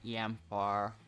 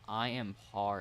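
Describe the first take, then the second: First: The name is run together into one word. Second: The name is said as three separate words. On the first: The speaker calls it wrong. "pronouncing it like Yampar" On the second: The speaker calls it right. "That's probably better"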